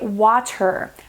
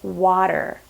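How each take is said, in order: First: The middle consonant is a crisp T sound. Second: The middle consonant is a soft D sound. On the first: "someone who's from the U K ... they may say water" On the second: "Americans or North Americans will say water"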